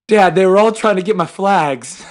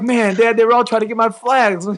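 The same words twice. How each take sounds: First: Put-on a touch higher, boyish complaint; half-hearted kid whine; lightly voiced aggrieved little boy; son's voice. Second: Higher, mock aggrieved kid; lightly voiced whiny little boy, higher; son's voice, amused. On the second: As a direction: imitate the boy while fighting laughter. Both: Father retelling son's complaint.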